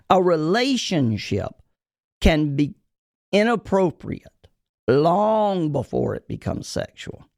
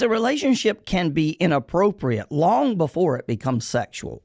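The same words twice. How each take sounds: First: Slow, deliberate, broken up by pauses; emphatic repeat. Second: Said in the usual way. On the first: Shown as a demonstration. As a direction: spell it out phrase by phrase so they hear it. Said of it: "because I want you to hear it". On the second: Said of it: "I'm gonna say it again".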